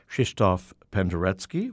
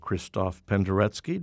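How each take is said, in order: First: The name is said with Polish pronunciation. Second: The name is said with international pronunciation. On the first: "the Polish" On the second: "international pronunciation"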